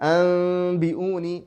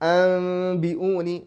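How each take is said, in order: Both takes have the same delivery.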